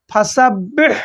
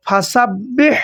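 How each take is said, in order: First: ফাসাব্বিহ again with a hissing throat হ; throaty big ha. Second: ফাসাব্বিহ ending in a breathy throat হ; throaty big ha. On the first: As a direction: repeat with a rushing হ. (আবার গলার হা দিয়ে ফাসাব্বিহ) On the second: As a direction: push air through the throat on হ. (গলায় শোঁ শোঁ শব্দে ফাসাব্বিহ) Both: Shown as a demonstration. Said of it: "এইভাবে".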